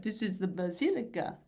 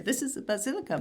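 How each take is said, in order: First: Put-on weak Italian accent, "basilica" barely changed; a half-hearted Italian accent on "basilica"; bad Italian accent. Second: Higher, hammed-up Italian accent, "basilica" sung out with a falling tune; overdone Italian accent on "basilica"; exaggerated Italian accent. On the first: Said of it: "not in a good Italian accent". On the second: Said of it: "not in a good Italian accent, but like".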